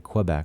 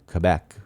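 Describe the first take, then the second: First: It is said in an English-style way. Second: It is said in a French-style way. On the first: It is the speaker's habitual way. "I always say Quebec" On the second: It feels pretentious. "if it's the proper way to pronounce it, then why not pronounce it Quebec?"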